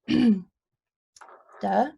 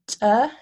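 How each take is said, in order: First: The stop is released with little air. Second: The stop is released with a puff of air. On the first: "we have a plain stop"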